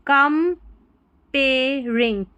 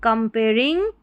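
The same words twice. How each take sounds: First: "comparing" very slowly, split com-pay-ring with long gaps; syllable by syllable. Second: Said in the usual way. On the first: Shown as a demonstration. Teacher sounding out for learners, "comparing" in very slow syllables. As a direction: break "comparing" into drawn-out separate syllables.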